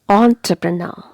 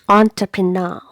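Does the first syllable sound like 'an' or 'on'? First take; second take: on; on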